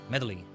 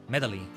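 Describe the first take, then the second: Both takes have the same delivery.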